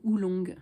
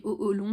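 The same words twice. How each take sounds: First: "oolong" opening on one oo sound; "oo" pronunciation. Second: "oh, oh, long" with two separate o sounds; split "oh-oh-long" pronunciation. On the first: Vlogger offering the other tea pronunciation, "oolong" starting with oo. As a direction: say "oolong" as oo-long. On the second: Vlogger unsure of the tea's name, "oh, oh, long" with a doubled o. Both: Shown as a demonstration. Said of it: "Je sais pas si on dit".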